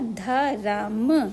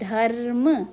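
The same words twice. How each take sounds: First: A full vowel is heard after the r. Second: The r joins the m with no vowel. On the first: The speaker calls it wrong. "पूरा रा लिखती तो ये होता धर्म" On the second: The speaker calls it right. "मुझे लिखना है धर्म"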